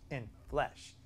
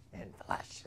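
First: Said in the usual way. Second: Whispered echo of the phrase. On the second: Shown as a demonstration. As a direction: breathe it out in a hushed whisper. Repeats phrase, second time whispered.

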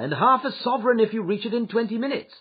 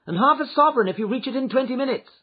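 First: High, urgent call to a driver; called-out offer. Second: High, loud urgent offer; urgent cry. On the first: Passenger promising the cabman money, calling out. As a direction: urge the driver on, voice raised in pitch. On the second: Lady urging her coachman on, crying out. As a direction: call out the reward in a raised pitch. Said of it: "she cried". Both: A narrator's reading.

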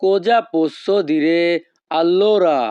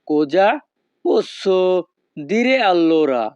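First: Cosa posso dire drawn out slowly, allora falling; slow Italian model phrase. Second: Cosa, posso, dire allora said word by word, dire allora very slow; word by word repeat. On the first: (ধীরে ধীরে Italian উচ্চারণ) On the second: (শব্দ ধরে ধরে ধীরে পুনরাবৃত্তি) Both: Shown as a demonstration. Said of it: "এই বাক্যের ইতালিয়ান ভাষা হবে".

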